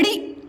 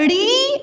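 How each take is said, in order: First: ड़ी as a quick "ri"; ड़ी brief, with no hold; short vowel. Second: ड़ी held as a long "reee"; ड़ी drawn out on a rising note; long vowel. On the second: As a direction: stretch out the ee in ड़ी. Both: Shown as a demonstration. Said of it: "उच्चारण में समय लग रहा".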